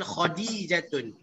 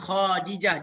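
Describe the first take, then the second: First: The name ends in an -atun sound. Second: The name ends in a short -ah sound. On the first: The speaker calls it right. "dia panggil Khadijatun" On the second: The speaker calls it wrong. "dia tak panggil Khadijah"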